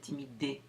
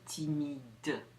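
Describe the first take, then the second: First: The final D sound is dropped. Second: The final D sound is clearly pronounced. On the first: The speaker calls it wrong. "I don't say timide" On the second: The speaker calls it right. "I say timide. That D is the D"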